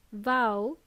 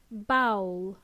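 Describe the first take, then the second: First: Vowel as one "vowl", clear v first; Vowel, buzzed v at the start; initial v. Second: Bowl said as "bowel", with a b; bowl, lips closed on a b, rhyming with owl; initial b. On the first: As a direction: say "Vowel" with a V, rising. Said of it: "Vowel with a V". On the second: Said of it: "Bowl with a B". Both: Shown as a demonstration.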